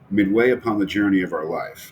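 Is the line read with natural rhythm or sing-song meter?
natural. It is read with natural, speech-like rhythm.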